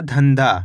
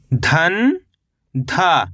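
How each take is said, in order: First: Said in the usual way. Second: "धन" rising, pause, then "धा" falling; split syllables. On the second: Shown as a demonstration. Teacher spelling out the word by syllables, split syllables. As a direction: keep धन and धा as separate syllables. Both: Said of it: "तो मिलके बन जाएगा".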